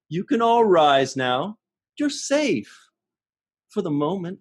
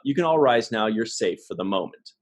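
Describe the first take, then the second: First: It is said like talking to small children. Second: It is said in a plain, neutral way.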